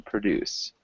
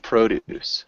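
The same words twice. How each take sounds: First: Produce said pro-DUCE, stress on the second syllable; verb produce. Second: Produce said PRO-duce, stress on the first syllable; noun produce. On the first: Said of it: "So we have two pronunciations of this word". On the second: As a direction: produce with a long PROH first syllable, slow and clear. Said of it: "pronounced a little bit differently". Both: Shown as a demonstration.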